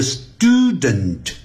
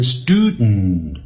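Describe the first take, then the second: First: Slow student with clear "dent"; drawn-out, careful STOO-dent; full form. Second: Student as "STOO-dnn"; student with no vowel in the last syllable; nasal release. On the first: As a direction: pronounce both syllables of student fully. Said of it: "它就会变音". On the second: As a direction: release the d of student straight into a humming n. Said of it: "用鼻音出来". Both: Shown as a demonstration.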